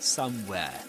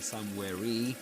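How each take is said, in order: First: The word ends without any extra vowel. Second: An extra vowel is sounded after the word. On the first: The speaker calls it right. "but somewhere" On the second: The speaker calls it wrong. "You don't say something like somewhere E"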